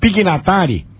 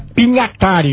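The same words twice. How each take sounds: First: The name is pronounced the Brazilian Portuguese way. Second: The name is pronounced the Italian way. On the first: "Será que está certo nós pronunciarmos Pignatari?" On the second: "É Pignatari no italiano"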